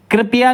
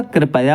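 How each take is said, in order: First: कृपया said high as "kri-pe-ya"; wrong pronunciation. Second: कृपया said "kri-pa-ya"; correct pronunciation. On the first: Teacher showing the mistake, high "kripeya" for कृपया. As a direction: put an e after p in कृपया. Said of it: "कृपया नहीं होता". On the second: Teacher correcting students, "kripaya" for कृपया. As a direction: keep a short a after p in कृपया. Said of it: "कृपया होता है". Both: Shown as a demonstration.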